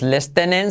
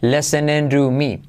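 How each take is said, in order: First: "listening" with the T sounded, les-te-nen; wrong T pronounced. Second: "listening to me" slowly as le-se-nen-ru-mi; silent T. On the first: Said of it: "no es listening". ("listening" pronunciando la T) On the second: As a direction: drop the T in "listening", soften it in "to". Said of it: "sin la T". ("listening to me" lento, sin T) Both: Shown as a demonstration.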